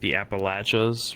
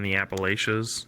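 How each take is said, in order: First: It uses the southern regional pronunciation. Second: It uses the northern regional pronunciation.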